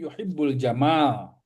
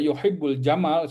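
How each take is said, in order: First: The vowel after the m is drawn out long. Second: The vowel after the m is kept short. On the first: It means beauty. The speaker calls it right. "Mimnya dibaca dua harokat" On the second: It means a camel. The speaker calls it wrong. "seolah Allah mencintai unta gitu kan. Jadi salah makna"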